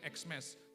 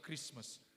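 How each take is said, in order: First: The word begins with the letter-name sound 'eks'. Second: The word begins with the sound 'kris'. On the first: The speaker calls it wrong. "cara bacanya jangan Xmas" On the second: The speaker calls it right. "tetap Christmas"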